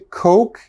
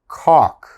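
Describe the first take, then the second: First: The vowel is a long 'oh' sound. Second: The vowel is a short 'o' sound. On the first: The speaker calls it right. "you want to say Coke" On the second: The speaker calls it wrong. "a lot of my students say cock"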